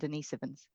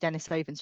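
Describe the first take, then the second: First: The first part sounds like Denise. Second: The first part sounds like Denis. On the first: The name comes from a woman called Denise. The speaker calls it wrong. "rather than Denisovans" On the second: The name comes from Saint Denis. The speaker calls it right. "if they are named after Saint Denis, would they not be Denisovans"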